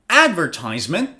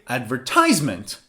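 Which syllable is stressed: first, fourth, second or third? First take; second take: first; third. First: The stress is on the first syllable. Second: The stress is on the third syllable.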